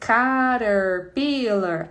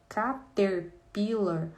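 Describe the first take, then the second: First: It is pronounced the normal English way. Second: It is read Portuguese-style with a clear T. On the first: The speaker calls it right. "Aí eu vou ler com a criança" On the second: The speaker calls it wrong. "Mas aqui tem um T que tinha que ser cater"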